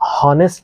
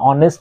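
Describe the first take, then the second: First: The word starts with an audible h sound. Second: The word starts with a vowel, no h sound. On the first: The speaker calls it wrong. "হনেস্ট বলি না" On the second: The speaker calls it right. "উচ্চারণের সময় অনেস্ট বলি"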